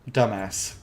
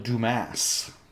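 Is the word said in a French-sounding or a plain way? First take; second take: plain; French-sounding. First: The word is said with its plain pronunciation. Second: The word is given a French-sounding pronunciation.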